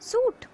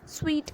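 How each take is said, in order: First: The word sounds like suit. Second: The word sounds like sweet. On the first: The speaker calls it wrong. "नहीं" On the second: The speaker calls it right. "इसे हम स्वीट कहते हैं"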